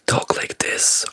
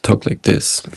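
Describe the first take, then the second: First: He speaks in his usual everyday voice. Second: He speaks in his rarely used real voice.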